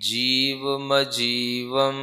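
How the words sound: The m sound begins the second word. The speaker calls it right. "जीव अलग पढ़ना, मजीवम अलग पढ़ना"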